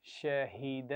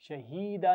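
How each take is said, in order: First: शहीद with a short हा, fluent; right short vowel. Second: शहीदा with a stretched ending vowel; wrong long ending. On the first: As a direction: read शहीद smoothly without lengthening. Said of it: "रवानी से पढ़िए". (शहीद, हा छोटा, रवानी से) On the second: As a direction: show the mistake by lengthening शहीदा. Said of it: "शहीदा नहीं पढ़ना". (गलत, शहीदा खींचकर) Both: Shown as a demonstration.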